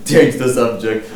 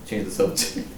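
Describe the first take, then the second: First: Louder and slow, like a declaration; loud announcement. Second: Softer, muttered under breath; quiet aside. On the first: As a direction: announce it slowly and firmly. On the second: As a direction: say it quietly to yourself. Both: Shown as a demonstration.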